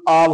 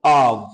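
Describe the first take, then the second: First: Said in the usual way. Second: आव drawn out slowly as the model sound; slowed-down आव for repeating; slow model word. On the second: Shown as a demonstration. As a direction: say आव slowly so students can copy it. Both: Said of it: "देखो आव".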